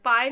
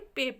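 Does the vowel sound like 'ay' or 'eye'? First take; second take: eye; ay. First: The vowel sounds like 'eye'. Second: The vowel sounds like 'ay'. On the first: The speaker calls it wrong. "पाए नहीं पढ़ेंगे" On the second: The speaker calls it right. "पे पढ़ेंगे"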